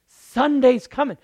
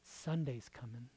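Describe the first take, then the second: First: Higher, loud Sunday's coming; triumphant call. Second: Quiet, low Sunday's coming; hushed promise; soft Sunday's coming. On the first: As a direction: shout the promise. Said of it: "repeat loud". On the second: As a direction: whisper the promise. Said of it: "repeat soft then loud". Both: Shown as a demonstration.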